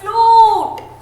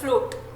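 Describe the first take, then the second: First: The vowel is drawn out long. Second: The vowel is short and clipped. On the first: The speaker calls it right. "हम लंबा बोलते हैं" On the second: The speaker calls it wrong. "हम ऐसा नहीं बोलते"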